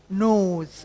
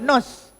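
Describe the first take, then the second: First: The vowel is long. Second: The vowel is short. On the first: The speaker calls it right. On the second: The speaker calls it wrong.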